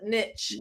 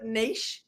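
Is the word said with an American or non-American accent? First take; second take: American; non-American. First: It is said the American way, like nitch. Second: It is said in the speaker's non-American accent.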